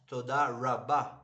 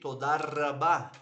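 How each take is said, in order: First: The R is an American English R sound. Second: The R is a throaty Hebrew-style sound. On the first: The speaker calls it wrong. "and not" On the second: The speaker calls it right. "You will sound way more fluent when you say"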